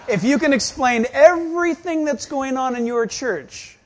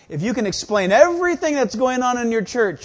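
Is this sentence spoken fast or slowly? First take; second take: slowly; fast. First: The sentence is spoken at a slow pace. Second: The sentence is spoken at a fast pace. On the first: "Let me say it slowly" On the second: "Fast one's going through your glove"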